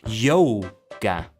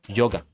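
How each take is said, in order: First: It has a long English-style first vowel. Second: It has a short, plain Japanese first vowel. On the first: The speaker calls it wrong. "it would be in English" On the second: The speaker calls it right. "just yo, and then ga, just simple like that"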